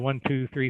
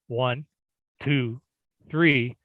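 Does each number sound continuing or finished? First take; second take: continuing; finished. First: The numbers run on without a final tone. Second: Each number ends with a final, finished tone. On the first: More numbers are still coming. The speaker calls it right. "So I count through" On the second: Each number is complete on its own. The speaker calls it wrong. "you're done with that number"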